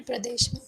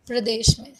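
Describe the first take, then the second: First: Whispered repeat. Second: Said in the usual way. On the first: Shown as a demonstration. Teacher echoes the state name to online students in a whisper. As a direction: whisper प्रदेश में under the breath. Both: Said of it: "repeats for students".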